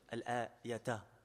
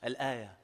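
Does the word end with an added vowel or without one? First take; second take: with; without. First: The word ends with a final vowel. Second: The word ends without a final vowel.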